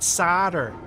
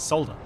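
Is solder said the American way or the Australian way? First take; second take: American; Australian. First: The word is said the American way. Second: The word is said the Australian way. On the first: The speaker calls it wrong. "the Americans in chat. uh, it's not solder" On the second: The speaker calls it right. "It's solder"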